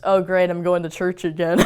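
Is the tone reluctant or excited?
reluctant. It sounds reluctant and sarcastic.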